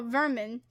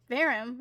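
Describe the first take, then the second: First: "vermin" with an n, VUR-min; corrected reading. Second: "Verum" said VAIR-um, ending on m; misreading. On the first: Streamer correcting a misread notice, "vermin" pronounced VUR-min. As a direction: say "vermin" with a clear MIN ending. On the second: Streamer puzzling over the misread word, "Verum" said VAIR-um. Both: Shown as a demonstration. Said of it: "Oh, vermin".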